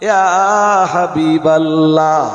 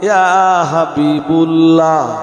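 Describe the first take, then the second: First: The b is followed by an a vowel. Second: The b is followed by a u vowel. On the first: The speaker calls it right. "তখন আপনাকে পড়তে হবে" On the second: The speaker calls it wrong. "হাবিবুল্লাহর বা অক্ষরে আপনি পেশ পড়তে পারবেন না"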